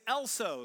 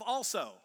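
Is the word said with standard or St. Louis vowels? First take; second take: St. Louis; standard. First: The first vowel is shifted, St. Louis style. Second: The first vowel is the standard one. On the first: "I say Elso still instead of also. That's a very St. Louis thing" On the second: "instead of also"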